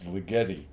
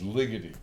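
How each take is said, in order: First: The name is said the Italian way. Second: The name is said the Hungarian way. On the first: "if you want to pronounce it like an Italian" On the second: "I think he's Hungarian, so I think it's Ligeti"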